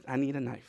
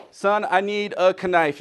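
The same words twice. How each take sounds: First: Said in the usual way. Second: Slowly, knife said as kuh-NIFE; sounded K. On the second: Acted. Father asking son for a knife, knife as kuh-NIFE. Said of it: "put a K in knife".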